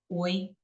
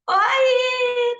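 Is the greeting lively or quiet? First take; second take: quiet; lively. First: The greeting is said quietly and flatly. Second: The greeting is said brightly and with energy. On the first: The person is discreet and reserved. "O boi é discreto" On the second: The person is outgoing and effusive. "O boi não é assim"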